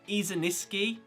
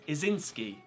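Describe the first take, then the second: First: The name is said with an extra syllable. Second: The name is said without the extra syllable. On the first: The speaker calls it wrong. "I keep throwing an extra syllable on her last name" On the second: The speaker calls it right. "but it's just"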